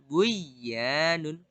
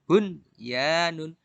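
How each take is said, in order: First: The n sound merges into the y. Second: The n sound is pronounced clearly before y. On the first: The speaker calls it wrong. "bukan buya nun" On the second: The speaker calls it right. "tapi bun ya nun"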